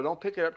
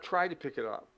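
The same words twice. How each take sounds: First: "pick" diberi tekanan, jatuh tegas; stress on pick. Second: "Try" ditekan jelas, nada turun; stress on try. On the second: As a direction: tekankan kata "Try". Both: Shown as a demonstration. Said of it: "Don't tr-, pick it up".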